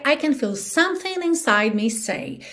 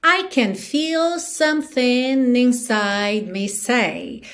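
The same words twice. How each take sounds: First: Said in the usual way. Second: Slow, stretched lyric line; song rhythm. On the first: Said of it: "normalmente eu falaria". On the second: Shown as a demonstration. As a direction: recite slowly to the song's beat. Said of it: "tô te dando no ritmo da música".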